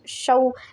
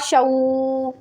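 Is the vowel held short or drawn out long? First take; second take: short; long. First: The vowel is said short and soft. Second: The vowel is drawn out long. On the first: The speaker calls it right. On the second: The speaker calls it wrong.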